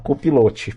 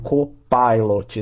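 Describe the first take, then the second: First: The word is pronounced the Portuguese way. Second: The word is pronounced the English way. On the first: The speaker calls it wrong. "ela fala copilote, porque é assim que escreve" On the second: The speaker calls it right. "Vamos escrever aqui um copilot"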